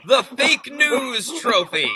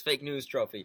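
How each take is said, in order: First: Much higher, louder, drawn-out words; all-caps shout. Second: Said in the usual way. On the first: Retold or imitated. Co-host reading the tweet's punchline, all-caps shout. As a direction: shout it like capital letters. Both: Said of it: "All caps".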